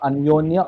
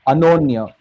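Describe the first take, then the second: First: It is said with a y glide after n. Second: It is said without a y glide after n. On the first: The speaker calls it wrong. "not Anyonya" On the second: The speaker calls it right. "Anonya, not Anyonya"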